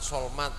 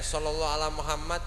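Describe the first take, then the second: First: The phrase is squeezed into two quick syllables. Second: Every syllable of the phrase is said fully. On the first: The speaker calls it wrong. "disingkat dadi muni solmat solmat ... Itu tidak baik, itu tidak benar" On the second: The speaker calls it right. "tidak boleh disingkat lagi"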